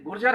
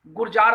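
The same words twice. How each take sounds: First: "गुर्जर" with a short a in the last syllable; corrected name pronunciation. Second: "गुर्जार" with a long aa in the last syllable; Uttar Pradesh pronunciation. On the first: Lecturer correcting a listener's misread name, "गुर्जर" with short final vowel. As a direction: say "गुर्जर" ending in a short -jar. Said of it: "मैं आपका नाम बार बार गलत पढ़ता हूँ". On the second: Lecturer showing the local reading, "गुर्जार" with long final vowel. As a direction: stretch the end of "गुर्जार" to -jaar. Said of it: "Uttar Pradesh वाले उसको गुर्जार पढ़ते हैं". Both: Shown as a demonstration.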